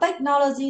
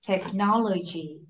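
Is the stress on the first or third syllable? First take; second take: first; third. First: The stress is on the first syllable. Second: The stress is on the third syllable. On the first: The speaker calls it wrong. "Chứ bạn không đọc technology đâu nha. Tech trọng âm rơi và tech không phải đâu" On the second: The speaker calls it right. "Trọng âm rơi từ no. Vì vậy sẽ đọc như thế này"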